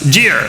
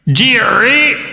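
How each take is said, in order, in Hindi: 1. अंतिम व्यंजन बिना उछाल के, सपाट खत्म होता है। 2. अंतिम व्यंजन गूंजती उछाल के साथ खत्म होता है। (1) "जिर बस" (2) "जिर नहीं"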